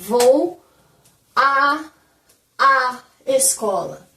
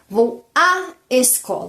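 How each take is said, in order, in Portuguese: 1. O 'a' é falado duas vezes, com uma pausa entre elas. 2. O 'a' é falado uma vez só, juntado em um único som.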